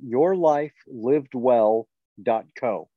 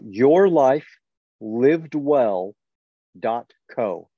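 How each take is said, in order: First: It is said at normal conversational speed. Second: It is said slowly and carefully.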